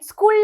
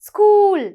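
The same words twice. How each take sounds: First: The vowel is short and clipped. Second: The vowel is long and drawn out. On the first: The speaker calls it wrong. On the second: The speaker calls it right.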